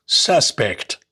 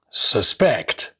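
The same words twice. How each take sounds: First: Suspect as SUS-pect, first syllable stressed. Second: Suspect as sus-PECT, second syllable stressed. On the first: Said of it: "nouns and adjectives normally have the stress on their first". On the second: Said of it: "the stress is shifted onto the second syllables". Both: Shown as a demonstration.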